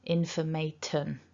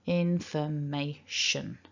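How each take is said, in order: First: The last syllable has a t sound and full vowel. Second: The last syllable has an sh sound and schwa. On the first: The speaker calls it wrong. "very common for people to pronounce this word something like informaten" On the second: The speaker calls it right. "with the little tiny schwa"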